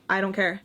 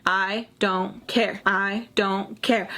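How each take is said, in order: First: Said in the usual way. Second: Half-speed, each word set apart; slow emphatic repetition. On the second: Retold or imitated. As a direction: space out "I... don't... care" deliberately. Same reply repeated for emphasis.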